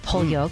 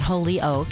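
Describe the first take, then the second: First: It uses the local regional pronunciation. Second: It uses a non-local, outsider pronunciation. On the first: The speaker's home region says it this way. The speaker calls it right. "that's how we say it" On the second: People outside the region say it this way. The speaker calls it wrong.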